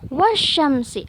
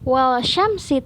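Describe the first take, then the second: First: No L sound; it goes straight into sy. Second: An L sound is heard before the sy. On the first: The speaker calls it right. "tapi wasyamsi, alif lamnya tidak dibaca" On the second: The speaker calls it wrong. "bukan wal syamsi"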